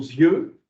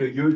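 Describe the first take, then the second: First: The word begins with a linking z sound. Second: The word begins without any linking sound. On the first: The speaker calls it right. "il est toujours avec la liaison" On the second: The speaker calls it wrong. "yeux tout court"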